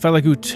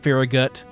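First: The name is said with a German-like pronunciation. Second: The name is said with an English pronunciation. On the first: "I'm giving it more of a German pronunciation" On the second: "If you're an English speaker, I guess you'd say it Farragut"

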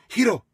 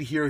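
First: It is said with a Japanese accent. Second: It is said in a plain American accent.

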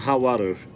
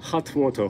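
First: It is said in an American accent. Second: It is said in a British accent. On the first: "アメリカの発音で言うとハッワール" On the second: "イギリスの英語で言うとハットウォーター"

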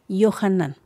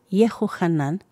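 First: The name is said with three syllables. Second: The name is said with four syllables.

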